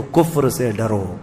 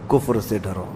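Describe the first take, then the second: First: Slow, weighty کفر سے ڈرو with the stress on کفر; grave warning. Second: کفر سے ڈرو dropped to a near hush; hushed warning. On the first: Preacher warning his dear listeners, slow and weighty. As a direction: lean on the word کفر, slowly. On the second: Preacher warning his dear listeners again, hushed and low. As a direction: repeat کفر سے ڈرو softly, as an echo. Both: Acted. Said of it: "میرے عزیزو".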